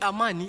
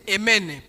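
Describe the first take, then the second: First: The vowels are said as normal 'a' sounds. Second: Every vowel is turned into an 'e' sound. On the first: The speaker calls it right. "si tu réponds au nom de Amani" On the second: The speaker calls it wrong. "il mettait partout E"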